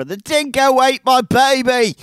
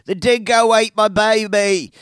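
First: High, loud bad Australian accent. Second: High, loud mock Australian cry; Australian accent. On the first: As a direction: ham up a mock Australian mother. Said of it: "not a good Australian accent". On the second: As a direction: quote the famous line in a hammed-up Australian accent. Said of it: "the famous line is uttered".

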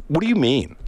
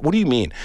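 First: Mock blank "what do you mean". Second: Retelling the waitress's clueless "What do you mean?"; blank, put-out "what do you mean". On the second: Retold or imitated. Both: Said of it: "Just like".

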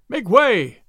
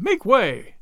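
First: Loud, high crowd cry; men in the crowd yelling to clear the way. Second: The crowd repeating its call to clear the way; second cry. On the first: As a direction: yell at them to clear the road. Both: A narrator's reading. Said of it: "cried the men all about him".

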